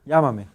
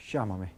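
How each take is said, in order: First: LLÁMAME begun with a y sound, loud; standard llámame. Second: LLÁMAME begun with sh, Argentine style; Argentine pronunciation. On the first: Teacher giving the standard form, LLÁMAME with y. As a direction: punch LLÁMAME with a plain y. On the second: Teacher showing how Argentines say it, LLÁMAME with sh. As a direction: say LLÁMAME as "shámame". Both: Shown as a demonstration. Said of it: "En Argentina, ¿cómo se dice?".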